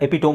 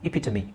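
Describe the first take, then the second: First: The word ends in a 'tome' sound. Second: The word ends in an 'ee' sound. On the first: The speaker calls it wrong. "ತುಂಬಾ ಜನ ಎಪಿಟೋಮ್ ಅಂತ ಹೇಳ್ತಾರೆ" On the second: The speaker calls it right. "But the actual pronunciation is ಇಪಿಟಮಿ"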